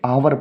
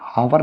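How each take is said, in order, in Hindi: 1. इस शब्द की शुरुआत स्वर ध्वनि से होती है। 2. इस शब्द की शुरुआत h ध्वनि से होती है। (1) "इसे आवर पढ़ते हैं, वॉवल से हो रहा है" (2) "इसे हावर नहीं पढ़ते हैं"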